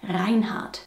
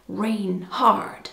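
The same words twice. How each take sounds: First: Said in the usual way. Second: "Reinhard" in an American accent, "rain hard". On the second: Shown as a demonstration. Joking on how Americans would read the name "Reinhard", American accent. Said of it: "Or should I say".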